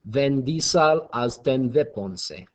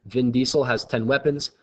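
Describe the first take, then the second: First: Slow fake German accent with v for w; mock German accent. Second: Said in the usual way. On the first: Shown as a demonstration. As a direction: say it slowly in an amateur German accent. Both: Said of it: "pronounce that phrase in a German accent".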